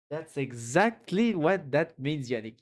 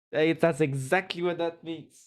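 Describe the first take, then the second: First: Slowed right down, each word weighed; deliberate, drawn-out agreement; slow emphatic repeat. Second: Said in the usual way. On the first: Real, not acted. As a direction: drag it out to drive the point home.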